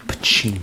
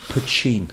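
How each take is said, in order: First: Put-on Poteen said po-TEEN, with a clean t; Poteen pronunciation. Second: Poteen said po-CHEEN, with a ch sound; Poteen pronunciation. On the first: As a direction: Poteen with a plain t before the stressed EEN. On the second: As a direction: Poteen with a ch before the stressed EEN. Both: Shown as a demonstration. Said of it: "I should have given a pronunciation".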